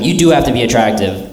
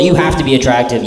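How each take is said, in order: First: "do" hit hard and falling; stress on do. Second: Said in the usual way. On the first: Shown as a demonstration. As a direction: lean on the word "do".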